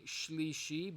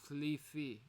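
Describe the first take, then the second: First: The word uses clear sh sounds. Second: The word is lisped with th sounds. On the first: "you're trying to say shlishi" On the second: "you lisp, right? And you say thlifi"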